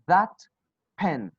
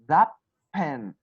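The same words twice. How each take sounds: First: The final t of 'that' is kept. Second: The final t of 'that' becomes p. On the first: The speaker calls it wrong. "you will not say" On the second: The speaker calls it right. "You will say"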